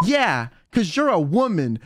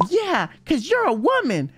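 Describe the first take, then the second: First: Deadpan, totally earnest; imitating a friend's straight-faced reply; dead serious. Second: Lifted higher, lightly mimicking; a light higher-pitched imitation; higher replay. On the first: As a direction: state it as a simple fact, no joke in it. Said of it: "so seriously". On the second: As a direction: replay her line in a higher voice, amused. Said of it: "She was like".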